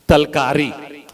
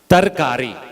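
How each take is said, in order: First: An l sound comes before the k. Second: An r sound comes before the k. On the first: The speaker calls it wrong. "That is distorted to talkari" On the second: The speaker calls it right. "Correct pronunciation"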